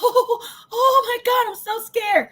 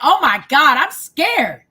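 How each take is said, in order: First: It is said in a frightened, panicky voice. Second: It is said in a calm, plain voice.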